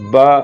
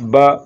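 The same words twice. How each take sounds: Both takes have the same delivery.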